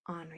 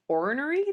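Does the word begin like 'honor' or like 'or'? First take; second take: honor; or. First: It begins with a sound like 'honor'. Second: It begins with a sound like 'or'. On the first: The speaker calls it wrong. "I thought they were saying like you're going to honor somebody" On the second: The speaker calls it right. "I was supposed to have been saying ornery that whole time"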